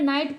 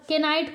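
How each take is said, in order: First: नाइट starting straight on N; silent K. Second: के नाइट with K sounded before the N; spelled-out pronunciation. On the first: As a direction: drop the K in नाइट. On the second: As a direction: add a "ke" syllable to के नाइट. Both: Shown as a demonstration. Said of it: "नाइट बोलते हैं".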